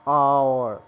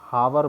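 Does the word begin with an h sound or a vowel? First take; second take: vowel; h sound. First: The word begins directly with a vowel. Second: The word begins with an h sound. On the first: The speaker calls it right. "ये होता है आवर" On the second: The speaker calls it wrong. "इसको कुछ बच्चे गलत pronounce करते हैं, इसको हावर बोलते हैं"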